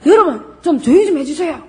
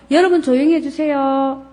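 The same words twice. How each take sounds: First: Higher, exasperated plea with a laugh; teacher fed up with noisy students. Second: Politely. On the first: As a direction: lose patience with a chatty class. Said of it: "이렇게 나가겠지요". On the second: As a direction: ask the class nicely. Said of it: "이렇게 좋게 얘기할 수 있지만". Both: Shown as a demonstration.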